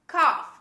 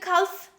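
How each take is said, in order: First: The L sound is silent. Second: The L sound is pronounced. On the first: The speaker calls it right. "This is cough" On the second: The speaker calls it wrong. "Don't say cough"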